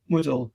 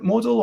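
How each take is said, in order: First: "Moodle" with OO in the first syllable; trying another pronunciation. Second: "Modal" with an O in the first syllable; trying a pronunciation. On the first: Asking how a guest's name is pronounced, "Moodle" with OO. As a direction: say "Moodle" with OO rather than O. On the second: Asking how a guest's name is pronounced, "Modal" with an O. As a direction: say "Modal" with O rather than OO. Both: Shown as a demonstration. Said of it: "is that how you pronounce it".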